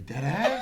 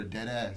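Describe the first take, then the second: First: "dead ass" pitched up with a rising end, half laughing; dead ass as a question. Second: "dead ass" said low with a falling end, as a flat statement. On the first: Checking with friends whether there are tests today, rising question. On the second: Telling a roommate to stop drinking his water, falling statement. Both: Shown as a demonstration. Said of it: "That joint could be a statement or a question".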